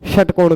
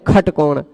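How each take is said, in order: First: The word begins with a 'sh' sound. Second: The word begins with a 'kh' sound.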